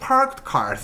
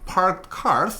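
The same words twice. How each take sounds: First: The pitch drops away on the second word. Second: Both words are said strongly with stress. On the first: The speaker calls it wrong. "절대 parked cars 이렇게 내려오지 않게" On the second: The speaker calls it right. "둘 다 세게 읽어주셔야 합니다"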